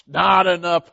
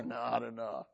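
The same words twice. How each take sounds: First: "Not enough" called out loud and firm; loud order. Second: Low, muttered "Not enough" said softly under the breath; quiet order. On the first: Elijah shouting to the men pouring water: not enough. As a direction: call "Not enough" out across the crowd. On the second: Elijah telling the men pouring water, quietly: not enough. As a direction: hold back, just murmur "Not enough". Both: Retold or imitated.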